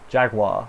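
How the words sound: The word is said with an American pronunciation. "Jaguar is what you Americans say"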